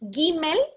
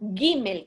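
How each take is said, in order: First: The first consonant is a plain, ordinary g. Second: The first consonant is harsh and guttural. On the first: "como cuando lo pronunciamos la, la, la, en normal nosotros" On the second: "que es como gutural"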